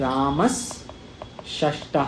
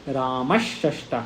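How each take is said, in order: First: The first s-sound is a dental s. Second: The first s-sound is a retroflex sh.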